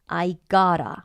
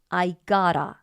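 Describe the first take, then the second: First: The t sounds blend into one 'gotta'. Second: The t sounds blend into one 'gotta'.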